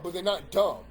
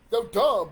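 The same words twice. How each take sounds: First: Not dumb, not stressed firmly. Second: Dumb said loud and hard; stress on dumb. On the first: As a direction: lean on not to deny it. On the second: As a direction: hit dumb loud, conceding. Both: Real, not acted.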